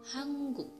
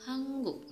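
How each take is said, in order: No difference in how they are said.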